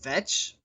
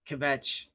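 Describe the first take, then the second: First: The word starts with a V sound, no K. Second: The word starts with a K before the V. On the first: The speaker calls it wrong. "otherwise it's vetch" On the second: The speaker calls it right. "you pronounce the K"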